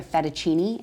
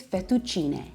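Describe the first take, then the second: First: Fettuccine said fet-uh-CHEE-nee; anglicized pronunciation. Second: Fettuccine said fet-too-CHEE-neh; proper Italian pronunciation. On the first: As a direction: end "fettuccine" on an English ee. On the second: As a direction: end "fettuccine" on an open eh. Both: Shown as a demonstration. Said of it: "The proper pronunciation is".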